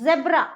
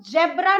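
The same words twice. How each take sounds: First: जेब्रा said with a buzzing z as in zebra; z sound. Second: जेब्रा said with a hard j as in jam; wrong j sound. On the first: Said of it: "इसके नीचे यहाँ बिंदी लगेगी". ("जेब्रा" ज़ की आवाज़ से) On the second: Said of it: "तो इसको हम जेब्रा नहीं बोलेंगे". ("जेब्रा" कठोर ज के साथ) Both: Shown as a demonstration.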